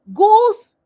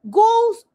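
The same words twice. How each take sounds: The two takes are said the same way.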